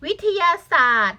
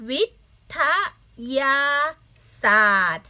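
First: Said in the usual way. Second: "วิ... ทะ... ยา... ศาสตร์" with a pause after each syllable. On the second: Shown as a demonstration. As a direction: sound out "วิ ท ยา ศาสตร์" as separate syllables for learners. (อ่านแยกทีละพยางค์ "วิ - ทะ - ยา - ศาสตร์") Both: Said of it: "อ่านได้ไหม".

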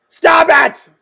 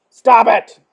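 First: Louder, high-pitched yell; escalated scolding. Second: Loud, firm command; firm scolding. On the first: Reader scolding clowns who keep laughing, high escalated yell. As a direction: raise it to an exasperated yell. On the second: Reader scolding clowns who laugh, loud and firm. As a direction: scold them loudly, pitch near usual. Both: Acted.

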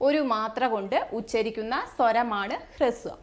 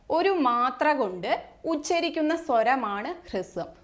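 First: Said in the usual way. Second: Phrase by phrase with pauses; teacher pausing so students can write; slow dictation. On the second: Shown as a demonstration. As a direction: dictate it slowly in chunks.

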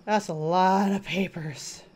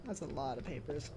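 First: Said in the usual way. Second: Quiet repeat. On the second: Real, not acted. Repeats line, much softer.

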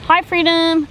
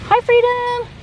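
First: Said in the usual way. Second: Squeaky high sing-song hello; pet talk. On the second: Real, not acted. To the pet parrot, squeaky high pet-talk greeting. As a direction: greet the bird in a tiny high voice.

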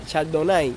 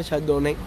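First: Chardonnay ending in "ai", like "nai"; English-style ending. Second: Chardonnay ending in "né"; his assumed pronunciation. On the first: Streamer testing the name for viewers, Chardonnay ending "nai". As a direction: say Chardonnay to rhyme with "eye". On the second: Streamer admitting what he thought, Chardonnay ending "né". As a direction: say Chardonnay with a final stressed "eh". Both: Shown as a demonstration. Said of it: "yo pensé que se decía".

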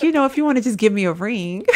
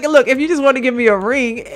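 First: Said in the usual way. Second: A hint of a coy girlfriend, a bit louder; lightly voiced girlfriend hint. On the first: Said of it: "She's like". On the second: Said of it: "she was just like".

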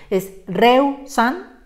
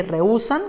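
First: Reusan dicho despacio en dos sílabas, re-u unidas; reusan sin tilde. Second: Rehusan en tres sílabas, re-hú-san, fuerza en la u; rehúsan con hiato. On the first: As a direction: pronuncia reusan con diptongo, acento en re. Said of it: "dice reusan y queremos decir rehusan". (reusan en dos sílabas) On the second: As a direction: separa la u: re-hú-san. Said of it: "ahora sí dice". (rehúsan con la u acentuada) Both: Shown as a demonstration.

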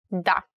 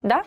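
First: Confident yes. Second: "Da" with a sharp questioning rise; unconfident yes. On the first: Teacher showing learners a very confident yes, firm. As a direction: say "Da" as a sure statement. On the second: Teacher showing a yes that isn't confident, questioning. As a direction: say "Da" as if unsure. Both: Shown as a demonstration. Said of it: "Have to be very confident".

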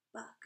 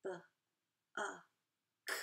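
First: Said in the usual way. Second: B, uh, k split into separate sounds with pauses; sounding out buck. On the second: Shown as a demonstration. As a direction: stretch buck apart one sound at a time. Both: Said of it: "And buck".

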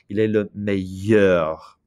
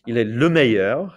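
First: "meilleur" slowed right down, with a Y sound in the middle and no L; clear Y sound. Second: Said in the usual way. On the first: Shown as a demonstration. Teacher showing students that meilleur has no L sound, slow, clear Y sound. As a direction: draw out "meilleur" on a clear Y glide. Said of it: "it's a Y sound". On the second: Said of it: "say those".

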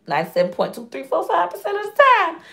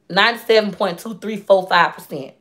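First: Higher, excited restatement. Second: Said in the usual way. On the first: Shown as a demonstration.

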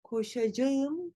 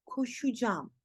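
First: Koşacağım in full, ko-sha-ja-ım; written form. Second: Koşacağım as ko-shu-jam, softer; spoken contraction. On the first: Teacher shows what to avoid, full koşacağım. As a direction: sound out all of koşacağım. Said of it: "değil". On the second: Teacher corrects, koşacağım as koşucam. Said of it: "Koşacağım değil". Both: Shown as a demonstration.

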